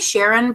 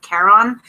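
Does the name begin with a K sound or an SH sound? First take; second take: SH; K. First: The name begins with an SH sound. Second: The name begins with a K sound. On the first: The speaker calls it wrong. "I say Sharon" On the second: The speaker calls it right. "I think it's pronounced like Charon, and then I just think I'm saying Karen"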